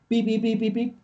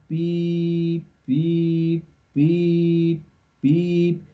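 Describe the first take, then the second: First: The beeps come quickly with short gaps. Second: The beeps come slowly with long gaps. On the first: The obstacle is close. "pero cuando está cerca" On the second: The obstacle is still far away. "cuando está lejos"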